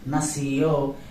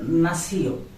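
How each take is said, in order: First: The stress is on the last syllable. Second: The stress is on the first syllable. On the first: The speaker calls it right. "because I have used tilde here" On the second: The speaker calls it wrong. "not nació"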